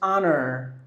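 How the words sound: The final R sound is pronounced. "If you go to U S English, that is honor"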